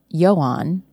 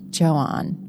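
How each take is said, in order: First: The name is said the Nordic or Swiss way. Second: The name is said the French way. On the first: The speaker calls it wrong. "his name can't be Johan because he's not Swiss or, Nordic" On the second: The speaker calls it right. "in French, they would pronounce it Johan"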